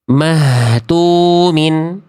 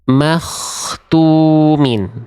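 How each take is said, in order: First: The middle consonant is a breathy throat h. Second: The middle consonant is a rough rasping kh. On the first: The speaker calls it wrong. "Yang saya baca barusan itu adalah ha ha besar" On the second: The speaker calls it right. "Bunyi kho-nya begini"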